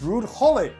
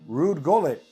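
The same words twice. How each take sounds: First: Gullit begins with a breathy H sound. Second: Gullit begins with a hard G sound. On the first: The speaker calls it wrong. "where's the H?" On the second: The speaker calls it right. "That's a G"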